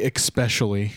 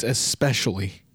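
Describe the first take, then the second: First: "especially" said with an X, ek-specially; imitated pronunciation. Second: "especially" said with a plain S, es-pecially; no K sound in "especially", just ess-pecially; correct pronunciation. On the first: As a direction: put a K sound into "especially", ek-specially. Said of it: "I just realized you say". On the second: Shown as a demonstration. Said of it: "you put an X with, it's, it's especially".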